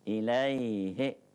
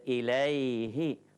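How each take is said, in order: First: The last syllable has an 'i' vowel. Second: The last syllable has an 'i' vowel.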